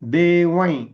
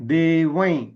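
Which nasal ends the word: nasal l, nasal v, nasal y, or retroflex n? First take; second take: nasal y; nasal y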